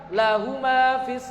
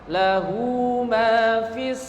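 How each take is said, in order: First: The vowel at the end of lahu is short. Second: The vowel at the end of lahu is long. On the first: The speaker calls it wrong. "tidak boleh dibaca satu harokat" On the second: The speaker calls it right. "tetap dibaca dua"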